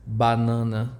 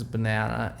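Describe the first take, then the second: First: Banana said the Portuguese way, bah-NAH-nah, with a nasal middle. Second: Banana said the English way, buh-NAN-uh. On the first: The teacher says the Portuguese banana for her student. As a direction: say banana the Brazilian way. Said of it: "in Portuguese is banana". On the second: The teacher contrasts banana in English and Portuguese. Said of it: "In English is banana". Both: Shown as a demonstration.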